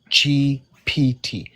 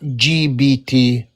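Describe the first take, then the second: First: The middle letter has a P sound. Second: The middle letter has a B sound. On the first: The speaker calls it right. "It's cat G P T" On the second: The speaker calls it wrong. "not G B T"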